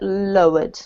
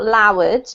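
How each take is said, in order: First: The word does not sound like loud. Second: The word sounds a bit like loud. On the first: The speaker calls it right. "but lowered, okay?" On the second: The speaker calls it wrong. "Not lowered, because lowered sounds a bit like loud"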